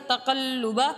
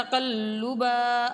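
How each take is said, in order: First: تقلبا read slowly and simply, with the right sounds; the clean reading of تقلبا; slow correct تقلبا. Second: تقلبا said the wrong way, not as Quranic recitation wants; a deliberately wrong reading of تقلبا. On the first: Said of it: "simple". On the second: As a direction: demo of the mistake in تقلبا. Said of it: "اگر ایسے پڑھیں گے تو غلط ہو جائے گا". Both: Shown as a demonstration.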